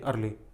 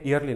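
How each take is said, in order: First: The word starts directly with the vowel sound. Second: The word starts with a 'y' glide sound. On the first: The speaker calls it right. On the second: The speaker calls it wrong. "ईयरली नहीं"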